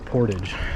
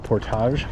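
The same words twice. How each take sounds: First: It uses the plain local Michigan pronunciation. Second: It uses a fancier, less local pronunciation. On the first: This is how people from the speaker's home region say it. "that's the way people say it around here. So I grew up saying Portage" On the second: This is how people in other videos say it. "it sounds fancy and fine"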